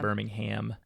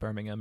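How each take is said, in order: First: The name is said with an American pronunciation. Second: The name is said with a British pronunciation. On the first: This is how people in the States say it. "we say it" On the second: This is how people in England say it. "They might say it like Birmingham"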